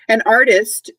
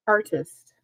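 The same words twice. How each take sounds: First: ARtist with the first syllable hit; stress first syllable. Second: Artist said slowly with a falling close; word said clearly. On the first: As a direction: lean on AR in artist. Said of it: "emphasis on the first syllable". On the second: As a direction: say Artist carefully for children. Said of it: "how well you know artist". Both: Shown as a demonstration.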